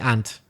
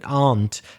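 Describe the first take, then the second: First: The vowel is short, like in ant. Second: The vowel in the word is long. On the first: "in Belfast, we say aunt, the same as insect" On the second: "should be a bit longer, shouldn't it?"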